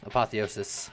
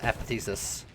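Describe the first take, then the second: First: The word is pronounced in its usual full form. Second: The word is pronounced in a mangled, altered form.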